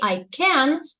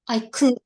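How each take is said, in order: First: The word 'can' has a full vowel. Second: The word 'can' has a weak vowel.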